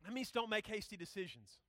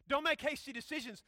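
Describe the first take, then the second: First: Said in the usual way. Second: Loud, higher preaching emphasis; forceful repeat. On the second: Real, not acted. Preacher driving the rule home to students, forceful repeat. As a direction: hit it hard as a command.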